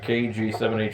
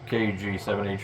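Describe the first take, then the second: First: The voice sounds fairly clear. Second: The voice sounds less clear. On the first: The speaker calls it right. "this is what I feel is probably the best one" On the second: The speaker calls it wrong. "the other mic that doesn't sound too good"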